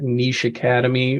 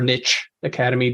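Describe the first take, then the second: First: Niche has a long vowel, like creek. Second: Niche has a short vowel, like crick. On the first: It reflects one regional way of speaking. "whether you call it a creek" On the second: It reflects another regional way of speaking. "or a crick"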